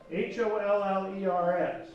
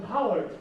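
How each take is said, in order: First: H O L L E R S spelled out letter by letter. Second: Said in the usual way. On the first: Shown as a demonstration.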